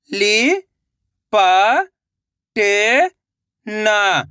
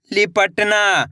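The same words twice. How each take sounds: First: "लि-प-ट-ना" very slowly, syllables apart; sounding out slowly. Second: Said in the usual way. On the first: Shown as a demonstration. Teacher showing children how to sound out a word. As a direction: sound out "लि-प-ट-ना" piece by piece. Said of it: "पहले लिपट पढ़ो, उसके बाद ना पढ़ो". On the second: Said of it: "मिलके बन जाएगा लिपटना".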